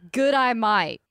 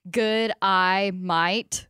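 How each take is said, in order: First: "Good, I might" run together as an Australian "g'day mate"; Australian accent. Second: "Good, I might" spaced out slowly, word by word. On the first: Co-host performs the meme on request, Australian accent. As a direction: put on a playful Australian accent. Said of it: "You have a good Australian accent". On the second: Reading a meme's words out to the hosts, slow and deliberate. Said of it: "Say this out loud". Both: Shown as a demonstration.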